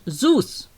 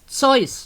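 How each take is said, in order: First: It is pronounced with English sounds. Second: It is pronounced with German sounds. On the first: The speaker calls it wrong. "not Zeus" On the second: The speaker calls it right. "it's Zeus"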